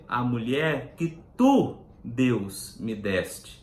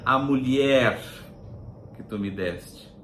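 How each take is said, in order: First: The stress falls on the word tu. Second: The stress falls on the word mulher. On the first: The one who made the woman is to blame. The speaker calls it right. "É outro. É a mulher que tu, Deus, me deste" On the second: The woman is to blame. The speaker calls it wrong. "o destaque dessa frase não é a mulher que tu me deste"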